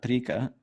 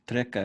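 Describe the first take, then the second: First: The first vowel is an i sound. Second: The first vowel is a short e sound. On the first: "but I always say tri, uh, trika" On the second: "I guess it's treka because it's a short e"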